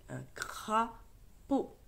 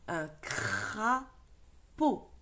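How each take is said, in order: First: Un crapaud said slowly, with a little more flow; slow model reading. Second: Crapaud stretched out, very slow; slow model reading. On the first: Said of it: "repeats word more fluently". (un crapaud lu lentement, plus lié) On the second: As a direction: read un crapaud slowly, syllable by syllable. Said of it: "models word syllable by syllable". (lecture très lente : un crapaud) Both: Shown as a demonstration.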